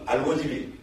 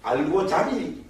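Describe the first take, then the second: First: "알고지비" with 지 in place of 자; Gyeongsang dialect form. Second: "알고자비" drawn out slowly, with a clear 자; slow, careful "알고자비" as the source form; original form. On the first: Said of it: "경상도 말로". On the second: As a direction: say "알고자비" slowly, sounding 자 rather than 지. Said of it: "원어로 보면 알고자비". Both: Shown as a demonstration.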